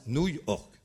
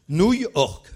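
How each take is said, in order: First: Said in the usual way. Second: "Nouille orque" high and very loud; triumphant loud burst on "Nouille orque"; punchline reveal. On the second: Real, not acted. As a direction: proclaim "Nouille orque" as the big answer. Reveals the pun answer.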